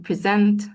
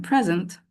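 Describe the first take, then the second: First: "present" stressed on the last syllable, pre-SENT; stress on second syllable. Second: "present" stressed on the first syllable, PRES-ent. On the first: Trainer contrasts two meanings for teachers, "present" with second-syllable stress. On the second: Trainer contrasts two meanings for teachers, "present" with first-syllable stress. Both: Shown as a demonstration. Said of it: "the correct stress pattern for each word".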